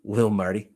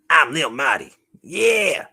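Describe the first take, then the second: First: Said in the usual way. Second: Loud, high hype voice; excited puppet. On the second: Pretend. Puppet introducing itself by its new name, excited. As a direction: announce yourself as a hyped toy character.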